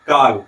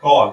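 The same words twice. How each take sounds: First: काल with a plain Hindi aa, louder; flat a. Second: कॉल with an open rounded aw; correct call. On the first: Teacher shows how the meaning changes, flat aa. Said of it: "और क्या बोले?". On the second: Teacher models the right way to say call, open aw. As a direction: say कॉल with the English aw vowel. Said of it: "इस तरीके से उच्चारित करना चाहिए". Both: Shown as a demonstration.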